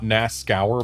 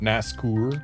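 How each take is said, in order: First: The last syllable does not sound like 'coeur'. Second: The last syllable sounds like French 'coeur'. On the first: "it could be not Nascour" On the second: "but Nascour, like pour as in French for heart"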